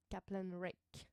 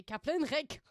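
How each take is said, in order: First: Slow, put-on English accent; unhurried mock English pronunciation. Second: Loud mock German accent; forceful, exaggerated German pronunciation. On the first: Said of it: "J'aime bien faire l'accent, euh, anglais". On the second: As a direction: bark it in a put-on German accent. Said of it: "J'allais dire l'accent allemand". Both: Shown as a demonstration.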